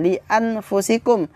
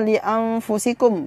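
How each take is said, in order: First: The n is pronounced clearly before f. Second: The n is hidden and nasalized before f. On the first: The speaker calls it wrong. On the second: The speaker calls it right. "harus dibaca samar juga"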